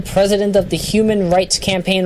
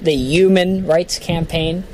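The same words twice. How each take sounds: First: Said in the usual way. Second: Put-on Brooklyn accent with Human said yuman, slow; Bernie Sanders. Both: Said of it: "or as Bernie Sanders says it".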